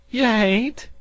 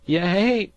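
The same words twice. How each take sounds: First: Higher still and loud, pleading; urgent cry. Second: High and loud, protesting; urgent cry. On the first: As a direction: repeat it, more desperate. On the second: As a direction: cry out to stop him. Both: A narrator's reading. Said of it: "cried the sea farmer".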